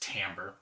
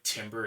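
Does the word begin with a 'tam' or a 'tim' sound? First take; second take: tam; tim. First: The word begins with a 'tam' sound. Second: The word begins with a 'tim' sound. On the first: The speaker calls it right. "it's timbre" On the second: The speaker calls it wrong. "Looks like timber"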